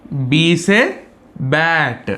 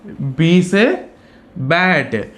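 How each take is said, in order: Both takes have the same delivery.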